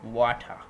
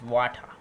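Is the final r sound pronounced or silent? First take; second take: silent; silent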